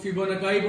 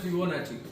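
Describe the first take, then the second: First: Fibonacci said as "fibona-KAI"; variant pronunciation. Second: Fibonacci said with a ch sound, "fibo-NAH-chee"; correct pronunciation. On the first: Teacher showing another reading some people use, Fibonacci as "fibona-kai". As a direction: end Fibonacci in a hard k and "eye" sound. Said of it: "उसके अलग-अलग pronunciation है". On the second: Teacher giving the class the correct one, Fibonacci with "-chee". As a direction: end Fibonacci in a soft "-chee", not k. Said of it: "the correct one is". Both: Shown as a demonstration.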